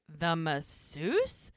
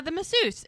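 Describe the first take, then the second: First: "The masseuse?" drawn out slowly, rising at the end; incredulous echo. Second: High-pitched mock confession; sheepish admission. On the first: Retold or imitated. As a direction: stretch "The masseuse?" into a disbelieving question. Mel's retold incredulous echo. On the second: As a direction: own up to it in a raised voice. Jack's retold sheepish admission.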